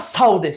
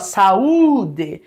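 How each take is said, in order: First: The a and u glide together in one syllable. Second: The a and u are in separate syllables. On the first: The speaker calls it wrong. "Você não fala saúde" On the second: The speaker calls it right. "você fala saúde. Esse U só vai ter força se ficar sozinho numa sílaba"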